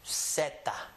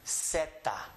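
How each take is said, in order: First: The word begins with an S sound. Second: The same.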